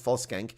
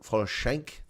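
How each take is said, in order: First: The name is said with an Afrikaans pronunciation. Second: The name is said with a German pronunciation. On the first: The speaker calls it wrong. "Not that Afrikaans Volskank" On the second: The speaker calls it right. "the proper German pronunciation of it"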